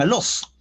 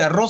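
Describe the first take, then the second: First: The middle consonant is an L sound. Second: The middle consonant is a rolled R sound. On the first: "la cambian por la L" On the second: "En lugar de decir arroz"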